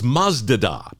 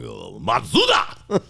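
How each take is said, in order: First: It is said as two syllables, Maz-da. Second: It is said as three syllables, Ma-tsu-da.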